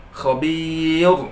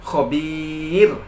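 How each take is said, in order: First: Khobir with a thick heavy final r, marked as wrong. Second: Khobir slow with a light, thin final r; correct thin ra. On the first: Teacher demonstrates the wrong reading, thick ra. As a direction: show the error: Khobir, heavy ra. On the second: Teacher gives the correct reading, thin ra. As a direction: model the right khobir, thin ra. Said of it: "Mestinya khobir". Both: Shown as a demonstration.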